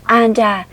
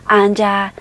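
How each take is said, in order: No difference in how they are said.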